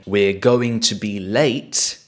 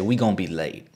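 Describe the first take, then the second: First: Going to is said in full. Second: Going to is reduced to gon. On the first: "instead of saying" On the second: "you can just say"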